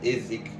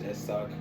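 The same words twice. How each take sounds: First: The name is said with an English pronunciation. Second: The name is said with a Spanish pronunciation. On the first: "The proper way to pronounce my name in English" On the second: "I think that's the right way to say it in Spanish"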